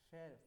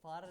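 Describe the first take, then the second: First: The vowel sounds like the one in 'fair'. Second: The vowel sounds like the one in 'far'. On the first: The speaker calls it right. "फेर हाई रा टेट" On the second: The speaker calls it wrong. "फार नहीं है"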